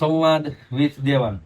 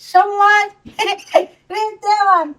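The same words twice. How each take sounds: First: It is said in the speaker's ordinary adult voice. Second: It is said in a small child's voice.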